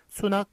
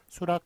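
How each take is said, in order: First: The second syllable begins with an n sound. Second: The second syllable begins with an r sound. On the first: It follows the original character reading. The speaker calls it wrong. "수낙, 쾌락, 허낙 안 되고요" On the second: It follows the altered common pronunciation. The speaker calls it right. "수락, 쾌락, 허락만 맞게 한다"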